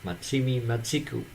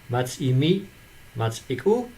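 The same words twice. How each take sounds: First: It is said like a Japanese-sounding phrase. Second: It is said like a Dutch dialect phrase. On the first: It seems to be a foreign management term. "you might think this is a Japanese management uh, construction" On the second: It means a favor is returned with a favor. "If you pronounce it differently"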